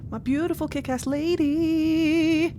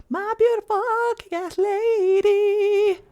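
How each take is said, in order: First: Slow, higher adoring coo; dreamy, delighted admiration; fond gush. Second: Much higher, louder, drawn-out fangirl squeal; over-the-top adoring squeal; gushing squeal. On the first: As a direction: gush over her lovingly. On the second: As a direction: squeal it out in delight. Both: Real, not acted. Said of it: "whilst I gush over my friends proudly".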